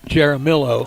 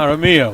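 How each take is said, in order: First: The name is said with English sounds. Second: The name is said with Spanish sounds. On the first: The speaker calls it wrong. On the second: The speaker calls it right. "We're saying it right here"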